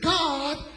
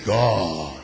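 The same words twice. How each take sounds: First: It is said in a high, thin voice. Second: It is said in a low, deep voice. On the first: The speaker calls it wrong. "You don't just say" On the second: The speaker calls it right. "you gotta lower that voice. ... But you say"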